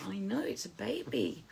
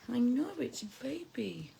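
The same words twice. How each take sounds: First: Said in the usual way. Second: Whisper. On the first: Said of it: "reply said twice". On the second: Real, not acted. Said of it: "repeat whispered".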